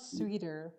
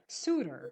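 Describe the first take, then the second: First: The first syllable sounds like 'swee'. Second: The first syllable sounds like 'soo'. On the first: The speaker calls it wrong. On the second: The speaker calls it right.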